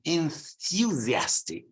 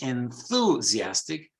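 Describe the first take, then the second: First: It is said with a British accent. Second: It is said with an American accent. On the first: "In British English, it's" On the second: "In American English"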